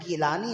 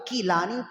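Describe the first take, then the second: First: The name begins with a G sound. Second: The name begins with a K sound. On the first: This is the non-Arabic reading, using gaf. "गीलानी अगर आप गैर अरबी में पढ़ें तो गीलानी है" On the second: This is the Arabic reading, using kaf. "जब अरबी में इसको पढ़ते हैं ना तो या तो कीलानी"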